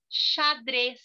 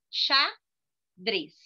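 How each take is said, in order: First: Said in the usual way. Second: "xadrez" split in two with a long pause; two separate beats on "xadrez"; syllable by syllable. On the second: Shown as a demonstration. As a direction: say "xadrez" as xa, then drez. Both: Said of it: "falando a palavra".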